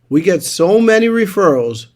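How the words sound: It is said with excitement and energy. The claim sounds believable. The speaker calls it right.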